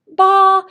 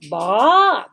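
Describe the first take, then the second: First: The pitch stays high and level. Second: The pitch rises from low to high. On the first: "They have a high sound" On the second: "They have a rising sound"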